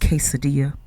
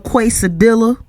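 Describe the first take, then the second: First: The word is pronounced in the standard way. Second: The word is pronounced in a mangled, mocking way. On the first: The speaker calls it right. "When it's pronounced quesadilla" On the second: The speaker calls it wrong. "Asking stuff like"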